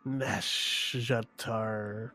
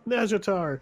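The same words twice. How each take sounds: First: It is said in a hissing, snake-like voice. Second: It is said in a plain, ordinary voice.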